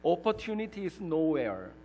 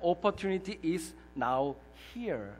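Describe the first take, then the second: First: The ending is said as one word. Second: The ending is split into two words. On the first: There is no opportunity anywhere. "잘 들어보시지요" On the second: Opportunity is right here, right now. "또 하나는 이것입니다"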